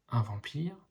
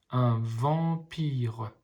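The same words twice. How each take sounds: First: Said in the usual way. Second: Very slow, split into syllables; slowly sounding out each syllable. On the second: Shown as a demonstration. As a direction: sound out vam-pire for a child. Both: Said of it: "les petits ponts vous aident à lire".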